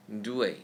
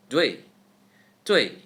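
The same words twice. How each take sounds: First: Dui slowly joined as "doo-ay"; do plus A. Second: Dui quick, loud and falling, as "dway"; reduced oo. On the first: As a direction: stretch Dui into its two sounds. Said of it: "We say do followed by a". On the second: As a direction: punch dui out in one short syllable. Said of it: "Speed up by reducing the oo sound". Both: Shown as a demonstration.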